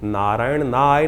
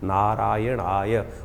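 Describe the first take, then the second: First: The ending is broken off as a separate 'nay'. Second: The ending flows smoothly as one 'aay'. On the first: The speaker calls it wrong. "नारायण नाय नहीं है" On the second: The speaker calls it right.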